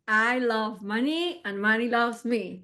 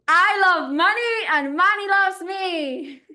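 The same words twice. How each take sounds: First: It is said plainly, without much warmth. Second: It is said warmly, with more love.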